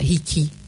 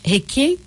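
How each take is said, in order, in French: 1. Les voyelles se prononcent avec le son 'i'. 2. Les voyelles se prononcent avec le son 'e'. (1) "On ne dit pas hiki" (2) "Tout le monde dit prononce mal. Donc c'est Waiheke"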